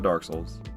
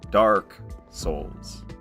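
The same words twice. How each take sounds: First: The words are mumbled quickly and run together. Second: The words are said slowly with clear, open vowels. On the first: The speaker calls it wrong. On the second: The speaker calls it right. "emphasize the A's and the O's"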